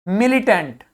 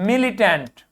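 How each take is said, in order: Both takes have the same delivery.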